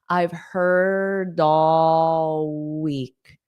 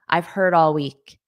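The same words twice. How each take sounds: First: The phrase is said slowly and deliberately. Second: The phrase is said at a natural, quick pace. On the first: The speaker calls it wrong. "it sounds weird when you say it so slowly" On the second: The speaker calls it right. "when I say it at a natural pace, it sounds natural"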